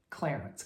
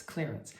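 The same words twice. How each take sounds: First: Clarence with a short flat a, Clare-ence; name, not sale. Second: Clearance with a long ee, clear-ence; sale, not name. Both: Shown as a demonstration. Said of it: "Not on clearance".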